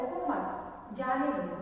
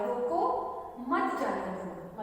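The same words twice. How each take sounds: First: The pause comes after the word मत. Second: The pause comes after the word रोको.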